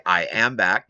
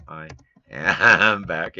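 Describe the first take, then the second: First: Said in the usual way. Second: "I am back" said slowly, each word stretched with a laugh; slow stress. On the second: Shown as a demonstration. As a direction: spell out "I am back" slowly for silent viewers. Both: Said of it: "I should say".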